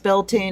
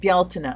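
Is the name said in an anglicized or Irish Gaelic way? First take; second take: anglicized; Irish Gaelic. First: The name is said in an anglicized way. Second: The name is said in the Irish Gaelic way. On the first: The speaker calls it wrong. "Bealtaine, I'm sorry" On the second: The speaker calls it right. "It is Bealtaine"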